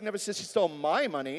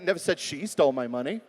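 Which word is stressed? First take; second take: my; she. First: The word 'my' carries the main stress. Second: The word 'she' carries the main stress. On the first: The stolen money belonged to someone else. "It was somebody else's money" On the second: Someone else stole it. "Could have been somebody else"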